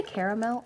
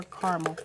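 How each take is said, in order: First: "caramel" said CARE-uh-mel; three-syllable caramel. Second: "caramel" said CAR-mul; two-syllable caramel. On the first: Asking viewers which they say, "caramel" as CARE-uh-mel. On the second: Asking viewers which they say, "caramel" as CAR-mul. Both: Shown as a demonstration. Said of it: "Do you say caramel or caramel".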